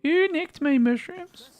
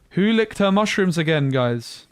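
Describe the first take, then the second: First: Very high, slow put-on voice; silly high voice. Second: Gasping, higher and louder; surprised gasp. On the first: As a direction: stretch it out in a squeaky character voice. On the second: Real, not acted. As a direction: gasp and blurt it out.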